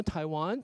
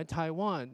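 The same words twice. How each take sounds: First: 台湾 as English "Taiwan", rising on WAN; questioning 台湾, second syllable lifted; stressed syllable raised. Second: 台湾 as English "Taiwan", WAN stressed, no rise; statement 台湾 with weight on WAN; second-syllable stress. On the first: Teacher explaining correct questions, 台湾 rising on WAN. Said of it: "拉高那个重音". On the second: Teacher showing the original stress, WAN stressed in 台湾. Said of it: "你那个重音就在one". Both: Shown as a demonstration.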